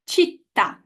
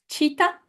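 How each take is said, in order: First: "città" stressed on the last vowel; final-vowel stress. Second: "cita" with the weight on the first syllable; wrong stress. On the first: Teacher models the correct word for class, stress on final vowel. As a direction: land firmly on the final a of "città". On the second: Teacher checking what the class read, stress off the final vowel. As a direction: stress the start of "cita", leaving the last vowel light. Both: Shown as a demonstration. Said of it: "the correct pronunciation of these three".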